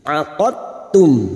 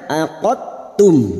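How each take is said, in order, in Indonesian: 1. Bunyi d menyatu dengan halus ke dalam t. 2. Bunyi d menyatu dengan halus ke dalam t.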